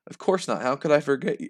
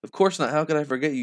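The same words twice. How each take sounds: First: Only slightly raised character voice; understated, barely changed dialogue voice; same voice. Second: Higher, lightly voiced motherly reply; put-on higher dialogue voice; distinct character voice. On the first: Acted. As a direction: answer in much the same voice as the last speaker. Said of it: "I'm using the same voice". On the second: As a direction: lift the voice to set this character apart. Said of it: "It kinda sounds confusing".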